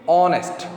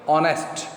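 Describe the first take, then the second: No difference in how they are said.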